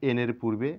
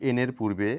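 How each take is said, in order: No difference in how they are said.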